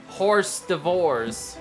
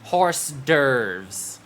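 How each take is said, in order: First: The second word sounds like 'divorce'. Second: The second word sounds like 'derves'. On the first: The speaker calls it wrong. "It looks like horse divorce" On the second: The speaker calls it right.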